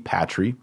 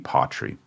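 First: The stress is on the last syllable. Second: The stress is on the first syllable. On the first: The speaker calls it wrong. "it's not going to be patri" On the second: The speaker calls it right. "the accent is on the second to last syllable"

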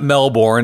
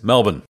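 First: The r sound is clearly pronounced. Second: The r sound is dropped entirely. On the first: The speaker calls it wrong. "It's not Melbourne" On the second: The speaker calls it right. "We don't bother with the R"

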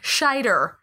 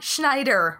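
First: No n sound follows the opening sh sound. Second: An n sound follows the opening sh sound. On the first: The speaker calls it right. "Roy Scheider" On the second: The speaker calls it wrong. "not Schneider"

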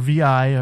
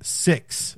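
First: The numeral is read as the letters V I. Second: The numeral is read as the word six. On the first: The speaker calls it wrong. "Don't say VI because that shit annoys the shit out of me" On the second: The speaker calls it right. "6 or VI, if you want to do it"

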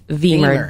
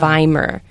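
First: The first vowel sounds like 'ee'. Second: The first vowel sounds like 'eye'. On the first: The speaker calls it right. "we always pronounce the latter vowel" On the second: The speaker calls it wrong. "it's not Wiemer"

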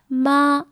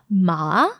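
First: The pitch stays level and high throughout. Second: The pitch dips low and then rises. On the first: It means mother. "with a flat intonation, a flat tone" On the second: It means horse. "if you say it in what we call like a tone three, the third tone"

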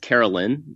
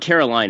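First: The last syllable sounds like 'lin'. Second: The last syllable sounds like 'line'. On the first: The speaker calls it right. "It's Carolyn" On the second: The speaker calls it wrong. "It's not Caroline"

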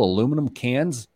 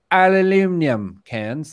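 First: It is said the American way, with four syllables. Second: It is said the British way, with five syllables.

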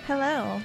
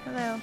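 First: It is said brightly, with enthusiasm. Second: It is said flatly, without enthusiasm.

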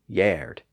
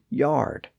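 First: The vowel is an older 'er'-like sound. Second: The vowel is the modern 'ar' sound. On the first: This is the pronunciation from centuries ago. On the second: This is the present-day pronunciation.

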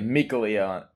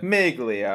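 First: It is said plainly, without an Italian flourish. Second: It is said pompously, with an exaggerated Italian accent. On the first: The speaker calls it wrong. "I'm not sure that they say Miglia" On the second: The speaker calls it right. "more pompous and more Italian"

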